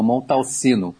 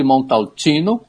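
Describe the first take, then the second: First: Montalcino with an "s" sound for c; wrong pronunciation. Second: Montalcino with "tch" before the "ino"; correct Italian pronunciation. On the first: Expert shows listeners the mistake, Montalcino with "si". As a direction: say Montalcino as "mon-tal-si-no". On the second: Expert teaches listeners, Montalcino with Italian "tchi". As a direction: say Montalcino as "mon-tal-tchi-no". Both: Shown as a demonstration. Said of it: "e não Montalcino".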